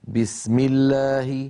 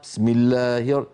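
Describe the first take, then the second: First: The first b is strong, voiced and fully stopped. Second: The first b is weak and crushed, barely stopped. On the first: The speaker calls it right. "وصوتها هكذا: ... بي بي شديدة مجهورة" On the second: The speaker calls it wrong. "وكأن الباء صارت ممعوسة مهروسة، صوتها ضعيف جدا"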